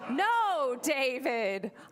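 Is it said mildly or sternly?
sternly. It is said sternly, with force.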